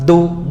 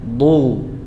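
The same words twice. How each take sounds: First: The consonant sounds like an emphatic d. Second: The consonant is made with the tongue's side. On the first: The speaker calls it wrong. "ini dal. ... Dal tafkhim gitu ya. Enggak" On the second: The speaker calls it right. "Tapi dari sisi lidah"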